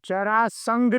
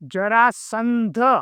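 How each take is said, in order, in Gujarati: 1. આ શબ્દ 'ngh' અવાજથી અંત પામે છે. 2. આ શબ્દ 'ndh' અવાજથી અંત પામે છે. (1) "જરાસંઘ નહીં" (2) "અહીંયા ધજાનો ધ છે, ગ નથી"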